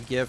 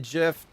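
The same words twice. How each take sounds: First: The word begins with a hard G sound. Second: The word begins with a soft J sound. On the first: "say G H I F" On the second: "type J I F"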